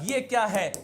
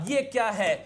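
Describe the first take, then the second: The two takes are said the same way.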